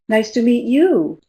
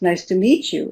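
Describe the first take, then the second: First: The main stress falls away from the word meet. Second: The main stress falls on the word meet. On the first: This returns the greeting to the other person. "if we change the focus of the of the sentence, then we change the stress" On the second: This is a plain first greeting. "Meet is the key word, the focus word"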